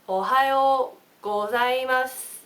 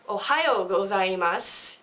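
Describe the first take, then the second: First: It is said slowly with a Japanese accent. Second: It is said with a foreign accent. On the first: The speaker calls it right. "I'll say it slow for you" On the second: The speaker calls it wrong. "It's not"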